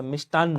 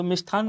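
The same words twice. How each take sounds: First: मिष्टान्न with a crisp unaspirated ट, mishtaann; correct sound. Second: मिष्ठान्न said with an aspirated ठ, mishthann; wrong spelling sound. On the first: Teacher giving students the correct मिष्टान्न, crisp unaspirated ट. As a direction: say मिष्टान्न cleanly, no breath on ट. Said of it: "मिष्टान्न होता है". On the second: Teacher showing students the wrong मिष्ठान्न, with a breathy ठ. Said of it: "तो मिष्ठान्न नहीं होता". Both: Shown as a demonstration.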